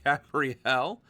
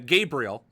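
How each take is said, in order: First: The name is said like a woman's name. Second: The name is said like a man's name. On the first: The speaker calls it wrong. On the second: The speaker calls it right.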